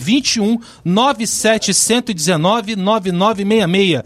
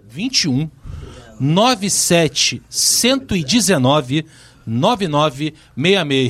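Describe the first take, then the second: First: The number is read at a normal pace. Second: The number is read slowly and carefully.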